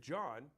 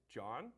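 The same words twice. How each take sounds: First: "John" falling flat like a statement; statement tune. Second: "John" with a rising question tune; asking tune. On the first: Teacher showing sales reps a closed "John". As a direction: drop "John" down, no question. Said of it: "I'm clearly not asking for a response". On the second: Teacher showing sales reps a questioning "John". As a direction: lift the end of "John" like asking. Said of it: "I dictate that I am asking a question". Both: Shown as a demonstration.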